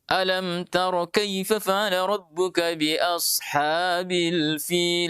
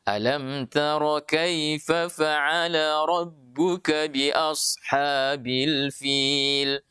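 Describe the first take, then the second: First: It is recited too fast, some parts rushed. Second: It is recited evenly, with long vowels held. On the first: The speaker calls it wrong. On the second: The speaker calls it right.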